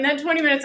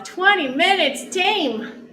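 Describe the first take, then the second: First: Said in the usual way. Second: Drawn-out high triumphant call; excited callout. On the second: Acted. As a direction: announce the finish with pride. End of workout callout.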